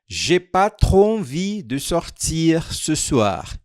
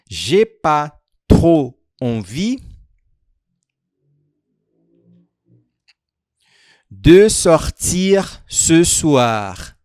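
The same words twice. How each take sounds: First: The sentence is spoken at a quicker, normal pace. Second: The sentence is spoken at a slower, careful pace.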